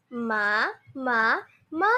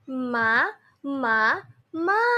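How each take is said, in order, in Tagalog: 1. Ang mga pantig ay binibigkas nang mas mabilis. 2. Ang mga pantig ay binibigkas nang mas mabagal.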